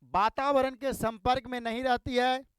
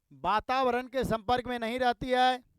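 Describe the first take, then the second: The two takes are said the same way.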